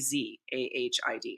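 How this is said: The first letter is said the American way.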